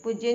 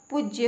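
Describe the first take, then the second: First: पूज्य with short u, puj-ya; wrong pronunciation. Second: पूज्य with long oo, pooj-ya; correct pronunciation. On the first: Teacher showing a misspelling, पूज्य said with short u. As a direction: clip the u of पूज्य. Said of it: "पूज्य नहीं होता". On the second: Teacher correcting learners, पूज्य said with long oo. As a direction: lengthen the u of पूज्य. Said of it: "प में बड़े ऊ की मात्रा". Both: Shown as a demonstration.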